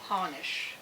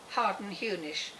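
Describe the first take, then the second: First: The name is said in a short, contracted form. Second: The name is said in a longer, spelled-out form.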